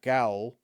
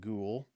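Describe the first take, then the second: First: The vowel sounds like the one in cow. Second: The vowel sounds like the one in cool. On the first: The speaker calls it wrong. "and not gowl" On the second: The speaker calls it right. "I'm comfortable with the pronunciation of ghoul"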